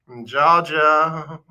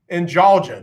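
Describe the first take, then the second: First: Georgia stretched slowly; drawn-out Georgia. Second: Said in the usual way. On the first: Shown as a demonstration. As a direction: linger on Georgia, slow. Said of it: "repeated word, drawn out". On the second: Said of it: "repeated word, playing with it".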